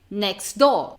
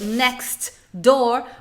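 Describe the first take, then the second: First: The T at the end of next is dropped. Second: The T at the end of next is pronounced. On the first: "O que, que você vai ouvir?" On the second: "você não vai ouvir esse T"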